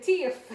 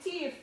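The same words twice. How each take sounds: First: "Teeth." said for thief, like teef, loud and laughing; mom's "teef". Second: Mom says "Teeth." clearly with th, higher; imitating mom. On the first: Retold or imitated. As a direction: imitate mom turning thief into "Teeth.". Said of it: "thief and teeth sound the same thing". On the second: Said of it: "She said".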